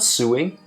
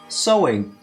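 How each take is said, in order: First: The first vowel sounds like 'sue'. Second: The first vowel sounds like 'so'. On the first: The speaker calls it wrong. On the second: The speaker calls it right.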